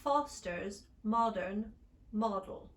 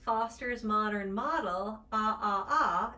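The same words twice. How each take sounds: First: "Foster's modern model" with rounded British o, slow; British short o. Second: "Foster's modern model" with open American ah, slow. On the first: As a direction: round the lips on each o. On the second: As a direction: open jaw on each ah. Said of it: "in standard American". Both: Shown as a demonstration.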